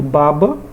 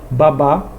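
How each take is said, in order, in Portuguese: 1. A tônica está na primeira sílaba. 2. A tônica está na última sílaba. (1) "baba não tem acento" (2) "Babá já tem acento"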